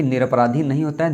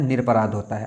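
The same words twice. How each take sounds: First: "निरपराधी" with a long ee ending; wrong word form. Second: "निरपराध" with no vowel after dh; correct word form. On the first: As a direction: finish "निरपराधी" on a clear -dhee. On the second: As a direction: finish "निरपराध" on a plain dh. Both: Shown as a demonstration.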